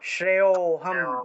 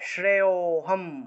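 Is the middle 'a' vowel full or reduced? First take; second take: reduced; reduced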